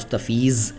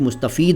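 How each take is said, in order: First: The word ends with a z sound. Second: The word ends with a d sound. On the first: "लेकिन हम भारतीय लोग अपने अंदाज में पढ़ते हैं" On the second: "जिसको अरबी अंदाज में दौद कहा जाएगा। तो इस तरह से इसका उच्चारण भी मुस्तफ़ीद हो जाएगा।"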